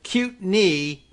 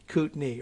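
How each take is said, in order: First: The first syllable has a Y sound, like 'cute'. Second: The first syllable has no Y sound, like 'coot'. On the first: The speaker calls it wrong. "get rid of that Y sound" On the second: The speaker calls it right. "Coot, like you old coot"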